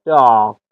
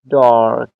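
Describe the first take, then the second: First: The r after the vowel is silent. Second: The r after the vowel is pronounced. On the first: "British dark" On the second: "American dark"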